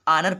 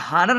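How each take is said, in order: First: The word starts with a vowel sound. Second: The word starts with an h sound. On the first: The speaker calls it right. "इसको आनर पढ़ेंगे" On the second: The speaker calls it wrong. "हानर नहीं पढ़ेंगे"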